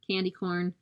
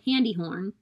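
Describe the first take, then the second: First: Each word begins with a k sound. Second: Each word begins with an h sound.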